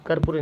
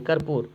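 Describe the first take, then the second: First: कर्पूरी with an extra final ee; wrong form. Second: कर्पूर ending on a bare r; corrected form. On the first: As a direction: end कर्पूरी on "ree", the mistaken form. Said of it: "गलती लिख दिया". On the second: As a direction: say कर्पूर in two syllables, kar-poor. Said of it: "sorry, कर्पूर होगा". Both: Shown as a demonstration.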